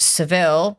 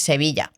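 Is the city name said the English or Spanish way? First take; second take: English; Spanish. First: The name is said the English way. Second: The name is said the Spanish way. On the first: "In English, it's Seville" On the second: "but in Spanish, it's Sevilla"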